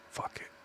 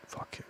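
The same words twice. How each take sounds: First: Breathy whispered fuck it; barely voiced, steeling himself; whispered swear. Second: Even softer whispered fuck it; barely voiced, committing to it; whispered again. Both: Real, not acted. Muttering to himself before the risk, whispered.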